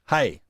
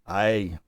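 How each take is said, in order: First: The vowel begins with a breathy h sound. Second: The vowel begins directly with no h sound. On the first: "the rough breathing mark is a h sound" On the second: "A smooth breathing mark, ... So it is just a"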